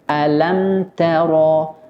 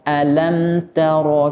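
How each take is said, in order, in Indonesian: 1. Bunyi t itu ringan dan tipis. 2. Bunyi t itu ringan dan tipis.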